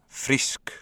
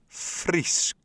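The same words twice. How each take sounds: First: The word is said at normal speed. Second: The word is said very slowly. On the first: "Können wir das nochmal hören?" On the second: "ganz langsam"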